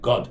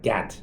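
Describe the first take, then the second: First: The vowel is a rounded 'aw' sound. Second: The vowel is an open 'ah' sound. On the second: "His name is G A D"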